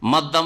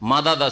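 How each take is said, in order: First: The two d sounds merge into one doubled d. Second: A vowel separates the two d sounds. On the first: "এটাকে ইদগাম বলা হয়" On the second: "মাদাদা ছিল"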